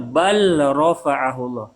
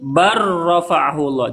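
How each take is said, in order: First: The L is pronounced clearly before the R. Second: The L merges into the R and is not heard. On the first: The speaker calls it wrong. "Tidak boleh terdengar" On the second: The speaker calls it right. "Jadi jangan dibaca lamnya. Lamnya nggak boleh diterdengar"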